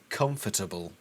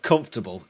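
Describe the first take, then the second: First: Every syllable of the word is clearly pronounced. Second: The word is reduced, with a syllable dropped. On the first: Something serious and threatening is about to happen. "say comfortable with all the syllables involved" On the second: The remark is ordinary and casual. "It's not comfortable"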